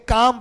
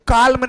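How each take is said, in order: First: काम with long aa straight into M; silent L. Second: काल्म with the L heard before M; L wrongly sounded. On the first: Teacher gives the correct reading of calm, काम without L. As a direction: say काम leaving out the L entirely. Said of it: "काल्म नहीं पढ़ेंगे". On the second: Teacher shows students what to avoid, काल्म with audible L. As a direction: say काल्म pronouncing the silent L. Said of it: "काल्म नहीं पढ़ेंगे बेटा". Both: Shown as a demonstration.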